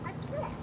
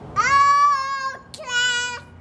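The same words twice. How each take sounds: First: It is said at a normal volume. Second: It is yelled loudly and proudly.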